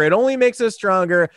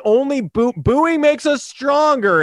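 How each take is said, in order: First: Said in the usual way. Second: Mocking, slow and high. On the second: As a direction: sneer it out slowly, high. Mocking Astros mantra.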